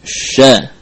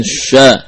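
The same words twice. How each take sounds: First: "Sya" with a light, thin vowel; not thickened. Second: "sya" with a heavy, thickened vowel; wrongly thick. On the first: ("Sya" tipis, tidak ditebalkan) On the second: ("sya" yang ditebalkan) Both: Shown as a demonstration. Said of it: "jangan ditebalkan".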